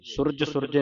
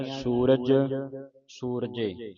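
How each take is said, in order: First: ਸੁਰਜ ਸੁਰਜੇ with a quick, short 'su'; ਸੁਰਜ ਸੁਰਜੇ run together, short vowels; mistaken short u. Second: ਸੂਰਜ ਸੂਰਜੇ with 'soo' held long; careful, separated ਸੂਰਜ, ਸੂਰਜੇ, each soo long; long oo vowel. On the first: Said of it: "ਸੁਰਜ ਸੁਰਜੇ ਨਹੀਂ ਪੜ੍ਹਨਾ". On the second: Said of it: "ਦਲੈਂਕੜਾਂ ਦੀ ਆਵਾਜ਼ ਉਚਾਰਨ ਹੋਵੇ". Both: Shown as a demonstration.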